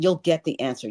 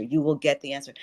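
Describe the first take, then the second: First: Said in the usual way. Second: "will" spelled out in full and leaned on; "You WILL get the answer", no contraction; stress on WILL. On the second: Shown as a demonstration. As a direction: insist on "will", firm and certain.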